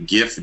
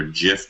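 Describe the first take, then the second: First: "gif" with a hard G, as in gift. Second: "gif" with a soft G, like "jif". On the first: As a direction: say "gif" starting with a hard g sound. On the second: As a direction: say "gif" starting with a J sound. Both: Shown as a demonstration. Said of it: "right way to pronounce gif".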